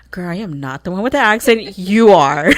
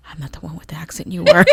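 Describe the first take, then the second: First: Retold sassy comeback, loud punch on "You are"; emphatic retort. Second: Retold retort. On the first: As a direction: push back, landing hard on "You are". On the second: Retold retort to teasing cousin.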